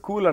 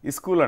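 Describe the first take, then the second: First: The word starts directly with the s sound. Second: An extra vowel is added before the s sound.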